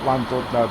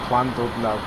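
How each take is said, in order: First: The word begins with a plain L sound. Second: The word begins with a 'cl'-like sound. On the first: This is how the speaker's home area says it. "I always call it Llandudno" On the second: This may be how the name is properly said. "it may be called Llandudno"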